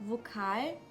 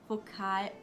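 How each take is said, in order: The two takes are said the same way.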